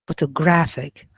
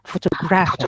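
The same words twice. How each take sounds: First: Only the syllable graph carries strong stress. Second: Two syllables carry strong stress. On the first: The speaker calls it right. "So here we are focusing or stressing just graph" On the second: The speaker calls it wrong. "one word cannot have two stresses. ... you cannot say"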